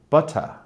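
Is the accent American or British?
British. It is said in a British accent. "my English accent is very terrible, but something like butter"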